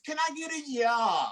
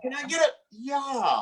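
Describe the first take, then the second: First: Higher, hyped-up call to the crowd; crowd call, shouted. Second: Repeated crowd call. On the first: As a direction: pump the room for a yeah. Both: Acted.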